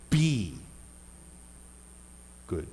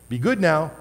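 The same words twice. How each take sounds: First: Be, pause, good; slow and drawn out. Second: Good said with a falling scold; like telling a child off; be good now, good clipped and firm; scolding parent tone. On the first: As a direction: space out be and good. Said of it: "how you emphasize a different word". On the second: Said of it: "No, no, no". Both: Shown as a demonstration.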